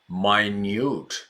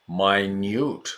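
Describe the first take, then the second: The two takes are said the same way.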